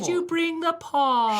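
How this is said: It is said in a posh accent.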